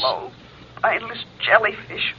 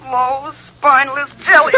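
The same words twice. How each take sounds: First: Soft, lower haunting echo; remembered taunt. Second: Mounting taunt. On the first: Girlfriend's words ringing in the guilty man's ears, softly taunting. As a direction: let the insult hang like a distant memory. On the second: Girlfriend's words returning more insistently in his head, taunting. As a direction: build the echo into a taunt. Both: Acted. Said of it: "Ellen's words ring in his ears".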